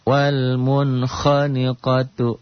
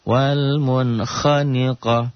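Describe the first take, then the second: First: The word ends in a full '-tu' sound. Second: The word ends in a stopped 'a' sound. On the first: The reading continues past this word. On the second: The reading stops at this word.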